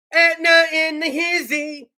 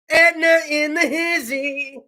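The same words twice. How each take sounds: First: Slow, drawn-out hype call; imitating a reporter's hype call. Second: Imitating the same hype call; hype reporter again. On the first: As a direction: stretch it out like a hype man. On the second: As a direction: repeat the hype call, easing off. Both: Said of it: "sit on the back of this dump truck".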